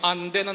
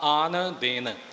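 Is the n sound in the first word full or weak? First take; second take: weak; full. First: The n sound in the first word is weak. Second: The n sound in the first word is full. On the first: The speaker calls it wrong. "ਇਹਨੂੰ ਅਨ ਦਿਨ ਨਹੀਂ ਬੋਲਣਾ, ਅਨ ਦਿਨ ਉਹ ਗਲਤ ਹੈ" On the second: The speaker calls it right. "ਨੰਨੇ ਦਾ ਉਚਾਰਨ ਪੂਰਾ ਕਰਨਾ"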